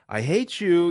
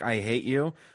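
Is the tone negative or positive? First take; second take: positive; negative. First: It is said in a cheerful, positive voice. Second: It is said in a plain, negative tone.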